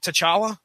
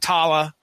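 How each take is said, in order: First: The 'ch' sound in the middle is pronounced. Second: The 'ch' sound in the middle is left out. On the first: The speaker calls it right. "they pronounced all the consonants and syllables that were there" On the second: The speaker calls it wrong. "like the C H was silent"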